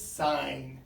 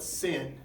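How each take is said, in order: First: The vowel is long, rhyming with 'line'. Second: The vowel is short, rhyming with 'pin'. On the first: The speaker calls it right. "It's sine" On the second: The speaker calls it wrong. "We don't call it sin"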